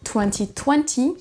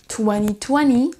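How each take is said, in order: First: It is said in a British accent. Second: It is said in an American accent. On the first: "un accent un peu plus neutre, comme le diront les Britanniques" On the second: "qui sera plutôt avec un accent américain"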